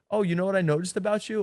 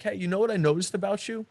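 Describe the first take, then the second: First: Higher and fast, light and fun; playful teasing. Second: Mock-serious, higher opener that drains the fun; serious teasing line. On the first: Coach showing a playful nightclub tease, animated. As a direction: tease her like it's a game. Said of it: "I'm really having a lot of fun". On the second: A coach showing a guy teasing a girl too seriously. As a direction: say it with a heavy, serious undertone. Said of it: "that seriousness brings the vibe down". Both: Shown as a demonstration.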